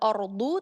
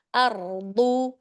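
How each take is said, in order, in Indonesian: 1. Vokal pertama membulat seperti 'o'. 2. Vokal pertama terbuka seperti 'a'. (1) "hamzahnya tidak O, tidak ordu" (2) "tapi dibuka"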